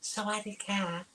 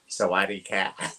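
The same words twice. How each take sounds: First: It is said in a high, feminine voice. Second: It is said in a low, masculine voice. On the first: This is the greeting the speaker expected to hear. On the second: This is the greeting the speaker actually heard.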